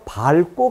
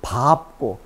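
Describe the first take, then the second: First: The cluster is pronounced with the l sound. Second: The cluster is pronounced with the p sound. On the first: The speaker calls it wrong. "이렇게 발음하는 사람인데 그건 잘못된 것이죠" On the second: The speaker calls it right. "밟고 밥지"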